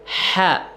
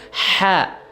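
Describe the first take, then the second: The two takes are said the same way.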